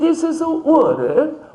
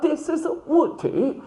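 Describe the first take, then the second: First: It is said with an American accent. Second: It is said with a British accent.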